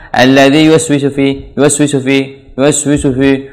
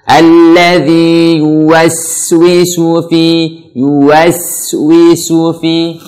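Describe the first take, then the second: First: "yuwaswisu fi" rattled off, mouth barely moving; lazy unrounded W and short S in "yuwaswisu"; careless wrong recitation. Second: "yuwaswisu fi" chanted slowly, rounded W, long S; correct tajweed recitation. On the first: Teacher imitating learners' mistake, barely articulated "yuwaswisu fi". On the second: Teacher showing learners the right way, slow chanted "yuwaswisu fi". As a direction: give every sound of "yuwaswisu fi" full length. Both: Shown as a demonstration. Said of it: "Ini salah".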